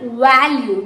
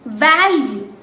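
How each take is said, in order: First: The first sound is not a clear v. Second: The first sound is a clear v. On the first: The speaker calls it wrong. "It's not value" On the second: The speaker calls it right. "This you have to bite your lower lip"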